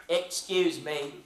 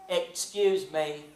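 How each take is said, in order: The two takes are said the same way.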